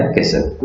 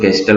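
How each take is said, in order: First: कैसल with S going straight into L, no T; silent T. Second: कैस्टल with the T sounded after the S; T pronounced. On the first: Teacher giving learners the correct castle, silent T. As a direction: drop the T completely in कैसल. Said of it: "ये इसका सही pronunciation होता है कैसल". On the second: Teacher quoting the common mispronunciation of castle, T pronounced. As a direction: sound out the usually silent T in कैस्टल. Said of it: "generally हम लोग कैस्टल बहुत बोल". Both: Shown as a demonstration.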